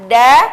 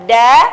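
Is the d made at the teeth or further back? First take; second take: Further back; Further back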